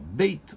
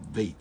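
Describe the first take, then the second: First: The word begins with a B sound. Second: The word begins with a V sound. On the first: The letter is written with a dot. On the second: The letter is written without a dot.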